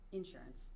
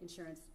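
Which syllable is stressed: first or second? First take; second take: first; second. First: The stress is on the first syllable. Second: The stress is on the second syllable. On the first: "You say insurance" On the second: "I say insurance with the accent on the second syllable"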